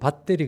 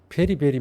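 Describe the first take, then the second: First: The middle t sound is clearly pronounced. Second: The middle t sound is dropped entirely. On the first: "영국 사람은 배터리" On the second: "T 발음을 안 쓰니까 베리가 돼요"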